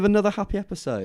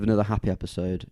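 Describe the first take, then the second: First: The voice sounds exaggeratedly cheerful and forced. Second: The voice sounds flat and gloomy. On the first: "now it's just insincere" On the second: "You sounded so like depressed about it"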